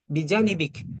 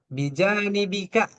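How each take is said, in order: First: The word ends on a consonant, vowel dropped. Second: The word ends with a final vowel sound. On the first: This is how native speakers usually say it. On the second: This is the full form with the ending pronounced.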